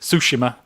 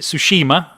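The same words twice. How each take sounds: First: The name is said a non-American way. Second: The name is said the American way. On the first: This may be the correct pronunciation. "I'm not sure on the correct pronunciation. Tsushima, is it?" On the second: This is how Americans say it. "the Americans seem to pronounce it Tsushima"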